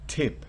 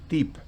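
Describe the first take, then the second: First: The t has a sharp burst of air. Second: The t is plain, without a puff of air. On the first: The speaker calls it right. "Tip tiene un- una especie de chasquido" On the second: The speaker calls it wrong. "si fuera en español yo diría tip"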